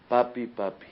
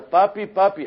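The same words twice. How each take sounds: First: Said in the usual way. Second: High, loud scared call for daddy; child's frightened cry. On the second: Retold or imitated. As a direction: scream for help as the dog bites. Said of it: "Y grita". (niño gritando asustado, agudo y fuerte)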